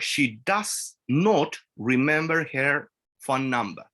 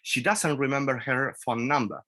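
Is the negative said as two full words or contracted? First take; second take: full; contracted. First: The negative is said as two full words. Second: The negative is contracted and said faster.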